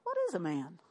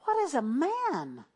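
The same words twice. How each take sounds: First: Low, soft puzzled muttering of angels; mock the angels' confusion softly; a hushed, baffled question. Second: Slow, drawn-out wondering question; a lightly voiced awed angel. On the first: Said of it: "they're all talking up there going". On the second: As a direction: let the angels marvel aloud, slowly. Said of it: "They said".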